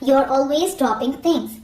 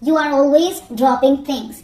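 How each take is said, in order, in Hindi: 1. "You are" जुड़कर एक शब्दांश बन जाता है, "you're"। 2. "You are" को दो पूरे शब्दों की तरह बोला जाता है।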